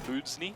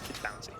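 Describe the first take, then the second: First: The name is read as it is spelled. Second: The name sounds like the word bouncy. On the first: The speaker calls it wrong. "While it is spelled out" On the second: The speaker calls it right. "Pronounced more like bouncy"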